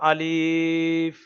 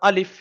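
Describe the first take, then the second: First: The vowel is drawn out long. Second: The vowel is said short and quick. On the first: The speaker calls it wrong. "ভুল হয়ে গেল, টান পড়ে যাচ্ছে" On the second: The speaker calls it right. "ঝাট করে পড়ে নিতে হবে"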